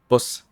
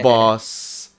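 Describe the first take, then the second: First: The word is said short and clipped. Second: The word is said long and drawn out. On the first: The speaker calls it right. "you just say boss" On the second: The speaker calls it wrong. "It's not like boss"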